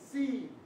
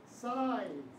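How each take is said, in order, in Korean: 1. 모음은 ee처럼 들려요. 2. 모음은 eye처럼 들려요.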